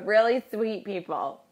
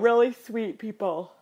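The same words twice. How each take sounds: First: The words are spoken clearly without a yawn. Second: The words are spoken through a yawn. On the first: The speaker calls it right. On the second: The speaker calls it wrong.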